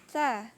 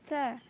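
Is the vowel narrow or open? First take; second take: narrow; narrow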